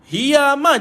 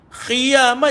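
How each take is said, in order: First: It starts with a breathy h sound. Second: It starts with a rasping kh sound. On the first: "Kalau tuan-tuan keluar angin, hiyamah jadi huruf ha pula" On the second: "Kalau tuan-tuan keluar air, dia jadi khiyamah jadi huruf kha pula"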